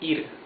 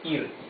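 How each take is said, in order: No difference in how they are said.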